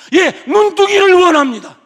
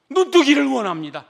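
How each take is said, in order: First: Much louder, higher cry; eager loud answer. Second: Said in the usual way. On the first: Acted. Blind beggar answering Jesus that he wants to see, loud and eager. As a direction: blurt the wish out.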